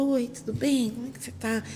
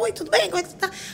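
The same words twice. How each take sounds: First: It is said in a plain, serious tone. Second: It is said in a joking, playful tone.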